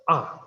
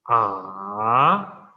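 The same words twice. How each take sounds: First: The pitch falls sharply from high to low. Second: The pitch dips down and then rises. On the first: "the fourth tone is the falling tone, totally falling" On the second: "So first falling and then rising"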